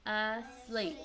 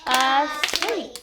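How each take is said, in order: First: "Asleep" as two measured parts, uh then SLEEP; saying the word. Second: "Asleep" in two loud beats, A then SLEEP; clapped-out syllables. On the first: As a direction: model "Asleep" evenly at an ordinary volume. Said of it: "All right, say the word". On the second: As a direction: punch both parts of "Asleep" on the claps. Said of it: "Now let's try clapping it out". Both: Shown as a demonstration.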